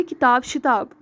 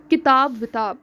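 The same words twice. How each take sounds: First: किताब शिताब with a sh-echo, शिताब; wrong echo word. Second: किताब विताब with a v-echo, विताब; correct echo word. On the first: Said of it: "ना कि". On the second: Teacher showing students the right echo word, clear and plain. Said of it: "इसे इस तरह कहा जाता है". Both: Shown as a demonstration.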